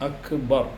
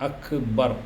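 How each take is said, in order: Both takes have the same delivery.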